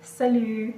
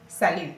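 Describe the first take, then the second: First: "Salut" said "suh-LU", the first vowel a short, weak uh; "Salut" with the first vowel reduced to uh, the right way; correct pronunciation. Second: "salut" said "sa-LU", the first vowel an open a as in cat; "salut" with a full open first vowel, the wrong way; wrong pronunciation. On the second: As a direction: give "salut" a broad open a in the first syllable, as the mistake to avoid. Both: Shown as a demonstration. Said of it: "not salut".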